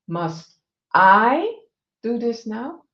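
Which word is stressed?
I. The stress falls on the word I.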